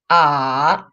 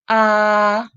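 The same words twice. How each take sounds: First: The pitch dips low then rises again. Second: The pitch stays high and level. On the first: "So the full third tone is" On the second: "first tone, it's high and flat"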